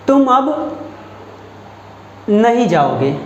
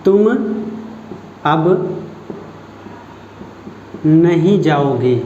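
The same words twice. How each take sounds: First: नहीं set apart and pressed; stress on नहीं. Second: Slow, spaced words with नहीं weighted and lower; slow stress on नहीं. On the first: Teacher asks students to find the stressed word, pressing नहीं. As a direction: punch नहीं in "तुम अब नहीं जाओगे". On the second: Teacher slows down so students hear the stress on नहीं. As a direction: draw it out and lean on नहीं. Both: Shown as a demonstration. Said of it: "यहाँ पर आप पहचानिए".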